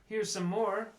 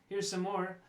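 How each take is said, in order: No difference in how they are said.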